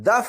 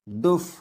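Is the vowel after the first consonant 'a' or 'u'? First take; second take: a; u. First: The first vowel is an 'a' sound. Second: The first vowel is a 'u' sound. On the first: The speaker calls it wrong. "ये लफ्ज दफ नहीं है" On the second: The speaker calls it right. "दाल के ऊपर पेश"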